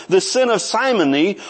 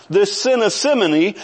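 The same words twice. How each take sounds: First: "simony" with a long i, as in Simon. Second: "simony" with a short i, as in "sim". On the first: Preacher renaming the sin after Simon, "simony" with long i. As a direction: begin "simony" like "sigh", long vowel. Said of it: "Maybe simony after his name". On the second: Preacher naming the sin to his congregation, "simony" with short i. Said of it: "depending on how you want to pronounce it". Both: Shown as a demonstration.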